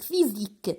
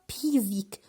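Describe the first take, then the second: First: The word begins with an f sound. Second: The word begins with a p sound. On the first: The speaker calls it right. "P H, se prononce F" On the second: The speaker calls it wrong. "on ne prononce pas physique"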